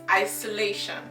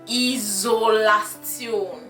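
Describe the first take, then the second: First: It is pronounced the English way, with a 'shun' ending. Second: It is pronounced the German way, with a 'tsion' ending. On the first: "isolation in English" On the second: "in German you pronounce it"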